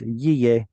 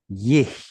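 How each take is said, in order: First: The syllable has no audible H sound. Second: The syllable ends with an audible H sound. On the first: "the hey is completely lost" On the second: "that one is an H sound"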